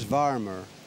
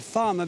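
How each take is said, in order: First: It is said in a Midlands accent with a strong R. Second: It is said in a standard accent.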